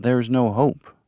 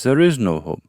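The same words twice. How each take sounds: First: Said in the usual way. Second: "is" raised and punched in "there is no hope"; stress on "is". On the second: A narrator's reading. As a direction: lean hard on "is" to counter the claim. Rebuts by stressing "is.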